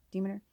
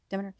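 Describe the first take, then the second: First: "Demeter" said as "DEE-muh-ter", with a long ee; "Demeter" tried as "DEE-muh-ter", questioning; first try at the name. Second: "Demeter" said as "DEH-muh-ter", with a short e; second try at the name. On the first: Unsure of the goddess name, trying "Demeter" as "DEE-muh-ter". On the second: Deciding on the goddess name, saying "Demeter" as "DEH-muh-ter". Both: Shown as a demonstration. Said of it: "Is it Demeter or Demeter?".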